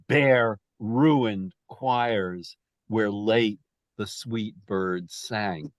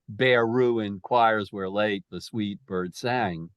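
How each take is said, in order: First: Each syllable is hit separately and choppily. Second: The syllables flow together smoothly and evenly. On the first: The speaker calls it right. "much less fluid. It's much more staccato" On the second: The speaker calls it wrong. "it's not"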